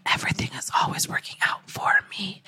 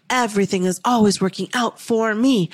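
First: Whispered affirmation, fast and hushed; whispered, softer, the first take of the affirmation. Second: Said in the usual way. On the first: Shown as a demonstration. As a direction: breathe the words out under your breath. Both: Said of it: "So repeat after me".

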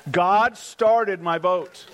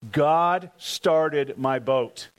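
First: God started my boat proclaimed louder with started raised; louder repeat. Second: God started my boat spoken slowly, each word weighted; slow declaration. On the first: Preacher proclaiming the miracle louder to the congregation. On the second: Preacher declaring the miracle slowly to the congregation. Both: Shown as a demonstration.

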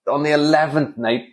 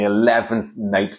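First: Said in the usual way. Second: Eleventh drawn out slowly and leaned on; slow, pointed eleventh night; deadpan slow emphasis; stress on eleventh. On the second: Shown as a demonstration. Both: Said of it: "eleventh night repeated for effect".

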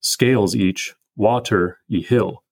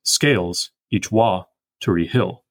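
First: "Scales each water-y" read slowly, WA and TER both stressed; scanned trochee trochee iamb. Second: Slow, "wa" unstressed, "hill" stressed; scanned iamb anapest. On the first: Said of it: "We could read this". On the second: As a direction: read it slowly: scales EACH wa-tery HILL. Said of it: "Or we could read it". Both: Shown as a demonstration.

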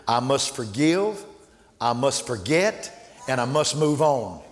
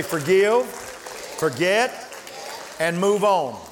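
First: Each phrase slowed and weighed, ending with a rise; slow, deliberate resolve. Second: Call for the congregation to repeat. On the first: Retold or imitated. Charlie vowing to forgive, said slow and firm. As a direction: let each vow land slowly. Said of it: "But Charlie said". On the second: Shown as a demonstration. Preacher leading the church in a call-and-response chant. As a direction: lead the church to say it back. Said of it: "Everybody say".

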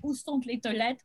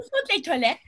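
First: Said in the usual way. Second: Put-on lisping French accent, sont said thont; mock lisping French tourist. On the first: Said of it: "when I say". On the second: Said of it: "I talk with a lisp".

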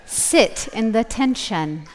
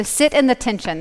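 First: "Sit in the tension" slowly, each word separate; careful enunciation. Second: Said in the usual way. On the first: Shown as a demonstration. Retrying a misheard phrase for the audience, careful enunciation. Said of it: "Is that better?". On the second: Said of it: "That's what I, sorry".

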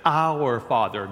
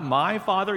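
First: "Our" leaned on, slow; stress on our. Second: "my" said a little higher as the wrong version; "my Father" lifted as the contrast. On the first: Pastor stressing "Our" to the congregation. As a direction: Our Father with "Our" pressed hard. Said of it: "Not "my Father," he says". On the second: Pastor contrasting "my" with "our" for the congregation. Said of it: "Not "my Father". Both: Shown as a demonstration.

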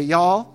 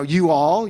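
First: Southern y'all. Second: Said in the usual way. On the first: Shown as a demonstration. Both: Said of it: "you say".

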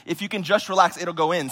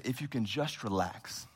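First: Said in the usual way. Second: Soft, slow, calming nurse voice; soothing nurse. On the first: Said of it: "But she said". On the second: Retold or imitated. Nurse calming a pastor with a dislocated shoulder, soft and slow. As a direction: coax him gently to relax. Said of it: "And she said".

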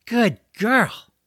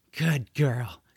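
First: High, loud pet-praising voice; gushing praise. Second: Understated pat-the-pet praise; mild praise. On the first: George rubbing the dragon's ears after the rescue, gushing. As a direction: gush over her, pitched way up. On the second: George praising the dragon after the rescue, mildly pleased. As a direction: praise her gently, voice near usual. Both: Acted.

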